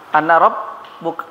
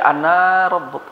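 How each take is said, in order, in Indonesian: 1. Vokal akhir dari anna itu pendek. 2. Vokal akhir dari anna itu panjang. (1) "nggak boleh dibaca pan panjang" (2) "Nggak boleh"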